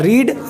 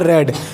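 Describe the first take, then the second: First: The vowel is long, like 'reed'. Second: The vowel is short, like 'red'. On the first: It is the present form of the verb. "जो रीड होता है" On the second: It is the past or past participle form. "उसका जो उच्चारण होता है वो रेड हो जाता है"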